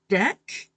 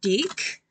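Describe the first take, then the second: First: The vowel is a short 'eh' sound. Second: The vowel is raised toward an 'ee' sound. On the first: "can't get used to the way the word deck is pronounced" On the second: "in New Zealand they pronounce it deek"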